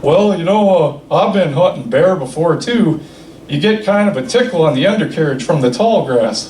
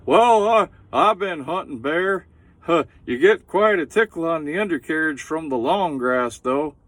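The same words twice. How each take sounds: First: Put-on old Bob voice. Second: High, loud old hunter impression; old Bob voice. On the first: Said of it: "He says". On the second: Comic retelling old Bob's line, high and loud. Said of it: "and he says".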